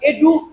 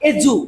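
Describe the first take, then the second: First: The consonant is a plain d sound. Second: The consonant is a j sound. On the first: The speaker calls it wrong. "এডু বলবো না" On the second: The speaker calls it right. "ডি ইউটা বর্গী জস্কের জু উচ্চারণ করব"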